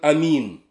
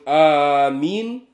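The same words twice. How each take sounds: First: The first vowel is kept short. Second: The first vowel is drawn out long. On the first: "и Каср, когда человек говорит амин" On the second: "Аль-Мад, когда человек говорит амин"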